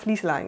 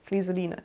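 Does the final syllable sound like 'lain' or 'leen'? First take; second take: lain; leen. First: The final syllable sounds like 'lain'. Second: The final syllable sounds like 'leen'. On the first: The speaker calls it wrong. "Ich habe früher auch immer Flieselein gesagt" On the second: The speaker calls it right. "das heißt Flieseline, das weiß ich"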